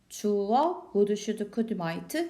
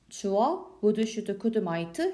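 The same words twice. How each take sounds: Both takes have the same delivery.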